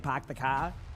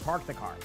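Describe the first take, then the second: First: It is said in a Boston accent, dropping the r. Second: It is said in a general accent, keeping the r. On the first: This is how the speaker's family says it. "my family has Boston accents, right? They're more likely to say park the car" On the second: This is how the speaker says it. "But me, I don't say park. I say park the car"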